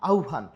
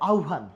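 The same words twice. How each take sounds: The two takes are said the same way.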